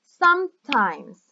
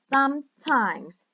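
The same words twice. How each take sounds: First: "sometimes" said slowly, SOME loud and high; stress on first syllable. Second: "Sometimes" slow, first syllable pushed; stress on first syllable. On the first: Teacher shows students the English stress, slow and loud. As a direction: stretch out "sometimes" with weight on SOME. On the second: Teacher repeats the model word, slow and stressed. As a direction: repeat "Sometimes", leaning on SOME. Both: Shown as a demonstration. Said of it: "we say".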